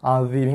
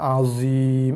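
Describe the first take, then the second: First: The consonant is made with tongue against teeth. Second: The consonant is a plain buzzing z. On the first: The speaker calls it right. "hujung lidah sentuh gigi kapak kita yang atas" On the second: The speaker calls it wrong. "tu makhraj zai"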